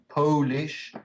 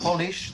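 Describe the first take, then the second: First: The first vowel is a long 'oh' sound. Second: The first vowel is a short 'o' sound. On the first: Coming from Poland. "the adjective" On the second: To make something shiny. "the verb"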